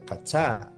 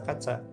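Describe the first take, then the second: First: One syllable is stressed, like an English word. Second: Both syllables are said evenly, with flat stress. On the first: The speaker calls it wrong. "Kalau Inggris itu kayak gitu ya" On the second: The speaker calls it right. "ditulis kaca, dibaca kaca"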